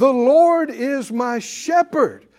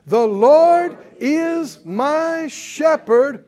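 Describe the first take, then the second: First: Slow preached declaration. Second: The Lord is my shepherd, drawn out loud and high; louder, slower repeat. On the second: Preacher leading the congregation, repeating it loud and slow. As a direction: shout it back even bigger, very slowly. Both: Shown as a demonstration. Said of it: "Come on, say it again".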